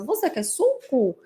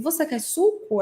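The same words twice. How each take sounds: First: Slow, higher parroting of a question; child's echolalic echo. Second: Lightly acted question to a child, higher pitch; lightly voiced parent's question; adult asking child. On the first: Acted. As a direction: lightly imitate a child echoing, drawn out. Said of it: "até com a mesma entonação". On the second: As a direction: ask a child, lifting the pitch. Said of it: "você pergunta assim".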